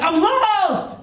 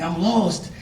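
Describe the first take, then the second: First: Mock yell, pitched way up; high, drawn-out call of a lost man; acted yell. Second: Said in the usual way. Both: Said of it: "He started yelling".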